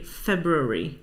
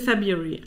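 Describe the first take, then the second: First: The first R sound is clearly pronounced. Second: The first R sound is left out. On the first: "though a sizable minority, say February" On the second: "I don't think I pronounce the first R"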